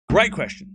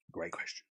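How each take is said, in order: First: Higher and louder, emphatic; bright emphatic. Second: Much lower and softer, barely there; quiet mumble. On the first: Streamer praising a viewer's question, loud and emphatic. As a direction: announce it like a game show host. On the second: Streamer musing over a viewer's question, quiet mumble. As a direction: mutter it to yourself, low and soft. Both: Pretend.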